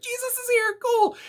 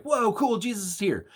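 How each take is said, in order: First: Far higher, squeaky amazed voice; cartoonish high-pitched excitement; giddy apostles. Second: Casual mock amazement; excited apostles. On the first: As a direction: gush like starstruck fans. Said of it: "and they're like". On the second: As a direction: react like a wowed kid seeing Jesus. Apostles react to seeing Jesus.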